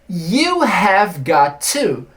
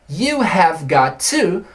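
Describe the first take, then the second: No difference in how they are said.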